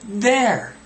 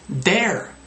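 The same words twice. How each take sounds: First: The word begins with a clear 'th' sound. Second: The word begins without a 'th' sound. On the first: The speaker calls it right. "th, th, there" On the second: The speaker calls it wrong.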